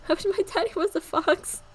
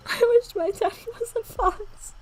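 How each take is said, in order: First: Put-on higher childlike wish; little girl voice. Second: High, slow, half-crying laughter through the line; laughing rereading. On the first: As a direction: say it like a wistful small girl. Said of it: "was her reply". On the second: Acted. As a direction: repeat it breaking up with laughter. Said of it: "that sounds so messed up".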